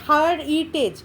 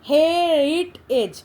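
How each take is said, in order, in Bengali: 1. প্রথম সিলেবলটি 'har' এর মতো করে বলা হয়। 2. প্রথম সিলেবলটি 'her' এর মতো করে বলা হয়। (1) "এটা হার উচ্চারণ করছি না" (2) "আমরা যখন উচ্চারণ করি হেরিটেজ"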